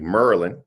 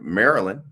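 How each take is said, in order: First: The name is said in the local way. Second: The name is said in the standard way. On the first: The speaker calls it right. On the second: The speaker calls it wrong.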